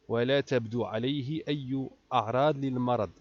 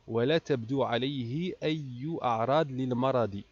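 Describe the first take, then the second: No difference in how they are said.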